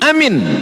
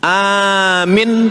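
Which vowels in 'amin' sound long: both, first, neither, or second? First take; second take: neither; first. First: Both vowels are short. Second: The first vowel is long, the second short. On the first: Make it safe. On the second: Believe it.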